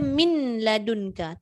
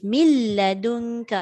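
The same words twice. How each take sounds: First: The n is pronounced clearly before the l. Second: The n merges fully into the l sound. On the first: The speaker calls it wrong. "Orang tak baca min ladunka" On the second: The speaker calls it right. "Mil. Masuk lam terus"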